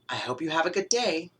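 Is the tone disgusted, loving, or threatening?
disgusted. It is said in a disgusted, repelled tone. The speaker finds the listener's smell repulsive. "You smell terrible"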